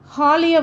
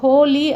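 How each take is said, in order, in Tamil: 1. முதல் உயிர் ஒலி 'aa' போல ஒலிக்கும். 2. முதல் உயிர் ஒலி 'oh' போல ஒலிக்கும்.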